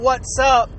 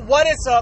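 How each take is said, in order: First: The first two words are contracted together. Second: All three words are said in full. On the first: "no more what's up" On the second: "no more what is up"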